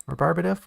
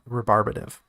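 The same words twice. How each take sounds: First: Rebarbative? rising like a question, pitched higher; unsure rising tune. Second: Said in the usual way. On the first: Shown as a demonstration. Author doubting the word Rebarbative, rising questioningly. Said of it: "Rebarbative? Whatever".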